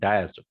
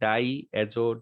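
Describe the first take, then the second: First: The two parts are run together into one word. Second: The two parts are said clearly and separately. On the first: "একসাথে হয়ে এটা হয়ে গেছে" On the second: "ডাই অ্যাজো এত স্পষ্ট করে তো কেউ বলে না"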